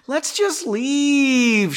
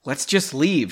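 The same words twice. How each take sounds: First: High, slow, whining plea; whiny little girl. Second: Said in the usual way. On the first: Acted. Astrid pleading with Henry to leave, whiny little girl. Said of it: "like a whiny little girl". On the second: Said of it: "she suggested in a pleading tone".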